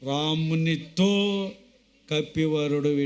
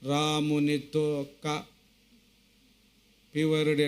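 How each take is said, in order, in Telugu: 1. విరామం 'ka' అక్షరం ముందు వస్తుంది. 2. విరామం 'ka' అక్షరం తర్వాత వస్తుంది. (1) "రామునితో కపివరుడు ఇట్లనెను" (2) "అన్నట్లుగా కాకుండా"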